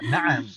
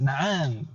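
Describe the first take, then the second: First: The vowels are kept short. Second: The vowel is drawn out long. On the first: The speaker calls it right. "na'am ini pendek semuanya" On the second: The speaker calls it wrong. "terkadang orang kita itu membacanya dipanjangkan"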